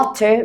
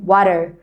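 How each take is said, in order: First: WATER with a fully sounded T; clear T. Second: WATER with the T tapped like a light R; American flap T. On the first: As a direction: say "water" with a true T, not a flap. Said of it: "مش بيقولوا water". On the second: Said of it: "الأمريكان بينطقوا التي دي شوية". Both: Shown as a demonstration.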